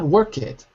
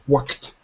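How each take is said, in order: First: A vowel separates the k and t sounds. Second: The k and t sounds join directly. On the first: The speaker calls it wrong. "Not work it" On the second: The speaker calls it right. "you've got to put the K and the T together"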